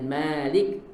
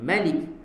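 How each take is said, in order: First: The first vowel of Malik is drawn out long. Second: The first vowel of Malik is kept short. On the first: "dia tak baca dengan Malik" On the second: "dia baca dengan Malik"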